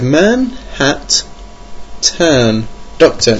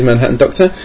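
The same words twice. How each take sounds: First: "Manhattan" broken into MAN, HAT, TAN with long gaps; misread word breaks. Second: Said in the usual way. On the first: Shown as a demonstration. Host showing his first misreading, "Manhattan" split syllable by syllable. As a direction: say "Manhattan" as three separate words, pausing widely before "Doctor". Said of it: "When I first read it, I thought it said". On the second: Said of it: "I think it's Manhattan Doctor".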